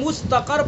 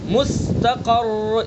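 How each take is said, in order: First: The final r is short and single. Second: The final r is doubled and held. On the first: The speaker calls it wrong. "सिर्फ रा साकिन हुआ और ये गलत हो जाएगा" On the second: The speaker calls it right. "मुशद्दद भी होगा और साकिन भी होगा"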